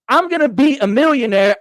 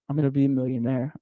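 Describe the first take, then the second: First: It is said with excited, heartfelt feeling. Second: It is said flatly, without feeling.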